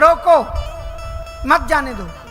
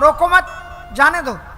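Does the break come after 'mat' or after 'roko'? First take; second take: after roko; after mat. First: The break comes right after the word roko. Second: The break comes right after the word mat. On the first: The person must be stopped, not let go. "इसका मतलब होगा व्यक्ति को रोकना है, जाने नहीं देना है।" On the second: The person should not be stopped but let go. "एकदम अर्थ बदल गया, स्वर बदलने से अर्थ बदल गया।"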